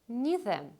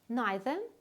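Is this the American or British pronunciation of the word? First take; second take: American; British. First: It uses the usual American English pronunciation. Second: It uses the usual British English pronunciation. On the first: "Neither is more common in American English" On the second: "Neither is more common in British English"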